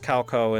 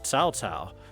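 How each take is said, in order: First: The name is said with English sounds. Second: The name is said with Chinese-style sounds. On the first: The speaker calls it wrong. "pronounced Cao Cao in the English every single time" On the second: The speaker calls it right. "apparently supposed to be pronounced Cao Cao"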